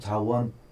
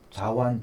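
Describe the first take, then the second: First: The second syllable is pronounced with a 'wo' vowel. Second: The second syllable is pronounced with a 'wa' vowel. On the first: Some people read it this way. "원자라고 하는 분도 있습니다" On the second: This is the reading listed in the pharmacopoeia. "우리 약전에는 완이라고 되어 있습니다"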